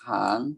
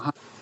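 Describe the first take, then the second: First: The syllable is said with a rising tone. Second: The syllable is said with a falling tone. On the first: "สระอางองูอ่านว่าหาง" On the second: "ไม่โท"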